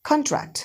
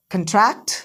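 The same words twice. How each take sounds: First: contract as KON-tract; full open KON in contract; first-syllable stress. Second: contract as kun-TRACT, rising; second-syllable stress. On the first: Teacher drills word pairs with students, contract stressed as KON-tract. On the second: Teacher drills word pairs with students, contract stressed as kun-TRACT. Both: Shown as a demonstration. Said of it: "सारे के सारे words एक बार पढ़ लो".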